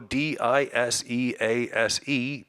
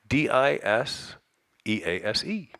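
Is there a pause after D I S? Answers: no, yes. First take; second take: no; yes. First: The letters run on without a break. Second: There is a pause after the letters D I S. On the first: "They didn't go" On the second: "you can't help but pause"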